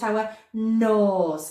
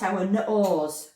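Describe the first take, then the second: First: "nose" as one word with a held nnn; pure N sound. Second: "nose" split as nuh-ose; wrong added vowel. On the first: Teacher showing the right way, "nose" with pure long n. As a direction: stretch the n in "nose", no uh after it. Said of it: "Can you hear the difference?". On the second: Teacher warning adults, "nose" mispronounced as nuh-ose. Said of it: "The sound is not n". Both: Shown as a demonstration.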